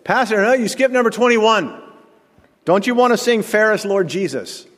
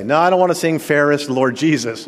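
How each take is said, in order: First: High, insistent imitation of a churchgoer; hammed-up high-pitched objection; piping up. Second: Loudish mock retort to the churchgoer; playful pretend refusal. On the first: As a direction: call out to the pastor, much higher, in mock protest. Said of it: "And again, John said". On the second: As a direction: act out an imagined flat-out no. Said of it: "What am I gonna say?".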